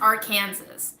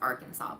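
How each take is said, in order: First: The word ends like the name Kansas. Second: The word ends with a 'saw' sound. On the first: "It should be pronounced Arkansas, because we have a state called Kansas" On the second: "how you properly pronounce Arkansas"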